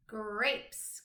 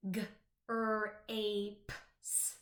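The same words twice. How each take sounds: First: Said in the usual way. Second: "g, r, a, p, s" said as separate letters with a pause after each; sounded out letter by letter. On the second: Shown as a demonstration. Teacher to young pupils, chopping the word into separate sounds. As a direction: chop "grapes" into single sounds. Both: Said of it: "let's get ready to chop up those words".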